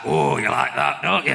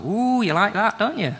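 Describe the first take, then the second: First: Manly voice. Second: High, camp bedroom teasing. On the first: Friend showing the beginner's line, mock manly voice. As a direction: say it like a man would. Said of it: "say it like a man would say it". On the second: Beginner's line during sex, high camp teasing. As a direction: tease it with a camp lilt. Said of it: "Not as camp as I do it". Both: Acted.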